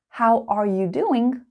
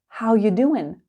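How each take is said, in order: First: Every word is said fully, including 'are'. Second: 'Are' is dropped and the phrase is run together.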